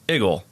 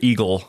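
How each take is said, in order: First: It starts with a short 'ih' sound, like 'Iggle'. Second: It starts with a long 'ee' sound. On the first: This is how locals in the city say it. The speaker calls it right. "if you talk to any Yinzer, it's Eagle" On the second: This is how locals do not say it. The speaker calls it wrong. "You don't say Eagle"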